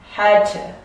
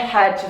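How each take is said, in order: First: The vowel in 'to' is full and clear. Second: The vowel in 'to' is reduced to schwa. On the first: "I don't necessarily say the man had to" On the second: "This becomes a schwa sound"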